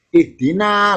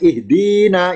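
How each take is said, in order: First: The vowel before 'na' is short. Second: The vowel before 'na' is long. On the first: "langsung na kan, yaknya nggak kelihatan" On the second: "Kalau ada yaknya kan ihdina, yaknya panjang"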